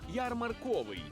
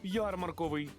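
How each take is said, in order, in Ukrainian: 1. Наголос на третьому складі. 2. Наголос на першому складі. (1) "У слові «ярмарковий» наголос на звук «о»" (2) "Від слова «ярмарок». Я такої ж думки"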